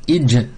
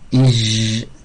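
First: The final sound is cut off abruptly. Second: The final sound continues without being cut. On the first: The speaker calls it right. "ça coupe le son" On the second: The speaker calls it wrong. "le son, il n'est pas coupé"

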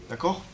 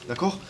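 No difference in how they are said.

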